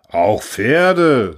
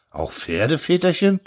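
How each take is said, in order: First: Loud, full-chested confirmation, falling at the end; proud conviction. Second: Subdued, worried question rising at the end; anxious. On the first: Orator confirming to worried peasants, proudly convinced. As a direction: declare it proudly, with total conviction. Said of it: "stolz im Brustton der Überzeugung". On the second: Peasants asking the orator about horses, anxious. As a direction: ask timidly, dreading the answer. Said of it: "fragten ängstlich die Bauern". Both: A narrator's reading.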